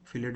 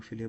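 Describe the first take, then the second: First: फिलेट ending in a clear T sound; T pronounced. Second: फिले without the final T; silent T. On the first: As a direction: close फिलेट on its T. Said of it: "कई लोग फिलेट बोलते हैं". (फिलेट, आख़िर में टी बोलकर) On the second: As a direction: end फिले on the vowel, dropping the T. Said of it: "कई लोग फिले बोलते हैं". (फिले, टी को साइलेंट रखकर) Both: Shown as a demonstration.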